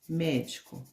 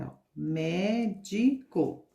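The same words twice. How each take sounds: First: Said in the usual way. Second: Médico drawn out slowly, syllable by syllable; slow syllable demo. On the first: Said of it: "Então, vamos pintar". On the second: Shown as a demonstration. Teacher to children spelling out médico slowly. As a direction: spell the word out with your voice. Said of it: "trissílaba são as palavras que têm três sílabas".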